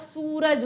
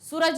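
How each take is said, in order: First: The first vowel is drawn out long. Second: The first vowel is said short. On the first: The speaker calls it right. "ऊ की मात्रा को हम लंबा खींच रहे हैं" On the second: The speaker calls it wrong. "सूरज नहीं होता"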